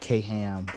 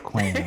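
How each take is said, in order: First: The name is split into two syllables. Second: The name is said as one syllable. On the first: The speaker calls it wrong. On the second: The speaker calls it right.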